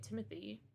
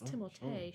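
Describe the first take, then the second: First: The name is said with an English pronunciation. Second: The name is said with a French pronunciation. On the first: It follows how the name is spelled. "all the fucking Americans say Timothy" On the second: It follows the name's French origin. "it's technically pronounced Timothée. Because he's French"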